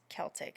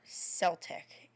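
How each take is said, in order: First: The word begins with a hard K sound. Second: The word begins with a soft S sound. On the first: The speaker calls it right. "It's a hard C" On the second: The speaker calls it wrong. "It's not Celtic"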